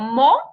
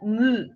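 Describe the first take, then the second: First: The vowel sounds like the 'o' in 'go'. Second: The vowel sounds like the 'oo' in 'moon'. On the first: The speaker calls it wrong. "no mo" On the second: The speaker calls it right. "but mu"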